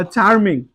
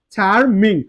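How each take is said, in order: First: Said in the usual way. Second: charming broken as "char, ming"; split into syllables. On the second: Shown as a demonstration. Teacher counting syllables for learners, charming split as "char, ming". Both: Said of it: "এখানে charm".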